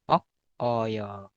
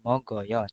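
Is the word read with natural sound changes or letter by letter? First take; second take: letter by letter; sound changes. First: The word is read letter by letter as written. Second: The word is read with natural sound changes. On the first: "kalau penulisannya adalah mokoyo" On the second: "kalau dibaca itu itu adalah mogoyo"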